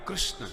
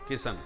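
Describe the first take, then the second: First: It starts with a 'kr' cluster and ends in 'shn'. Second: It starts with 'ki' and ends in 'shan'. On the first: The speaker calls it right. "इनका नाम कितना टेढ़ा है" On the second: The speaker calls it wrong. "कृष्ण की जगह किशन बोलते हैं"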